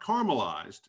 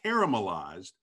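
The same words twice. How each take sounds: First: The first part sounds like plain 'car'. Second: The first part sounds like the name 'Kara'. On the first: The speaker calls it wrong. "It's not caramelized" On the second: The speaker calls it right. "it's caramelized. Make sure you say it right"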